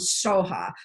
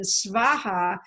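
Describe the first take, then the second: First: The word begins with a plain s sound. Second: The word begins with an sv sound. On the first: This is the Tibetan pronunciation. "the Tibetans have developed their own pronunciation" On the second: This is the original Sanskrit form.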